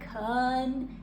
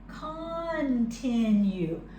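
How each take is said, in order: First: The word is said quickly with a blurred vowel. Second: The word is said carefully with every sound clear. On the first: "sounds like continue? Continue when we say it quickly?" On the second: "it's really continue"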